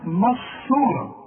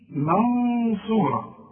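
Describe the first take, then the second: First: The N is merged into the next sound. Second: The N is hidden with a nasal hum. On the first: The speaker calls it wrong. "وما قلش بقى مصورة إدغام" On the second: The speaker calls it right. "شوف الفرق بين الإدغام والإخفاء، دي منصورة"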